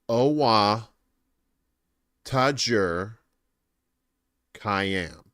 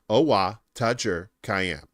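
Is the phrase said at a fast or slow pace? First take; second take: slow; fast. First: The phrase is said at a slow pace. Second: The phrase is said at a fast pace. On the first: "put it together" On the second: "Now say it faster"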